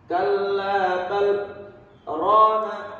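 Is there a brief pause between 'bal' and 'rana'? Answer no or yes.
yes. A brief stop without breath separates bal and rana. The speaker calls it right. "Harus berhenti dulu, berhenti sejenak, sekedar satu alif"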